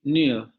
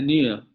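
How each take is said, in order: Both takes have the same delivery.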